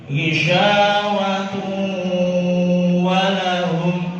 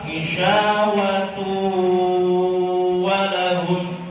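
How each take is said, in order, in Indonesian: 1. Bunyi n menyatu, setengah sengau, setengah masuk ke w. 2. Bunyi n menyatu penuh ke w tanpa bunyi sengau. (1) "lima puluh persen masih melalui khaysum, jalur hidung, dan lima puluh persen diarahkan ke waw" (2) "masuk ke wawu total. ... gunanya khaysum, tidak dilewatinya"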